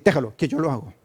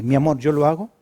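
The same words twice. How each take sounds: First: Brusque, impatient "Déjalo"; a spouse brushing off the other, annoyed; curt irritated reply. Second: Gentle, affectionate offer to help; sweet loving reply. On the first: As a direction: snap it off like you're fed up. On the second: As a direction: say it kindly to your spouse. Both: Shown as a demonstration. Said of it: "no es lo mismo decir".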